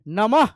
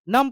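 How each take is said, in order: First: The word ends with a breathy h sound. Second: The word ends without a breathy h sound. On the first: The speaker calls it right. "विसर्ग का मतलब होता है ह" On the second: The speaker calls it wrong. "नम पढ़ दीजिएगा आप लोग"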